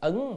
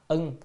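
First: The syllable is said with a rising tone. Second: The syllable is said with a level tone. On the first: "có hai âm, một là ưng là ứng" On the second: "ở đây nên đọc là ưng"

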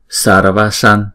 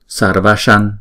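No difference in how they are said.

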